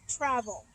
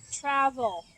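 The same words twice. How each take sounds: First: Said in the usual way. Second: "Travel" said louder with an uh vowel; demo word. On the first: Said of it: "It also makes the uh sound". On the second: Shown as a demonstration. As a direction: hit "Travel" with the second vowel as uh. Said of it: "listen to the sound the second vowel makes".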